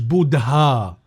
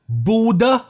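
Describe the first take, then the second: First: The d is followed by an audible h sound. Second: The d is said with no h sound after it. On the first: The speaker calls it wrong. "مش بودها" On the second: The speaker calls it right. "فبيتقال بودا"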